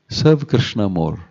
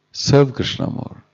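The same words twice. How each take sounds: First: Said in the usual way. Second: "Serve" lifted higher and drawn out slowly; emphatic repeat. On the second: Shown as a demonstration.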